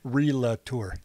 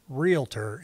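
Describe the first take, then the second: First: The word is said as re-la-tor, three syllables. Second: The word is said as real-tor, two syllables. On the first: The speaker calls it wrong. "instead of relator" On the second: The speaker calls it right. "needs to learn how to say realtor"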